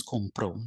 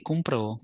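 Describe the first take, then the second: First: Compro without stress on the final o; compro, last syllable left unaccented; no final accent. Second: Compró stressed on the final ó; compró, weight landing on the closing ó; stress on final syllable. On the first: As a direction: say compro with stress on com, not pro. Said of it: "without the accent". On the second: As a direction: say compró with the accent on the last syllable. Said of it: "with the accent, it means he bought". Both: Shown as a demonstration.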